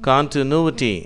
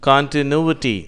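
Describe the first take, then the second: No difference in how they are said.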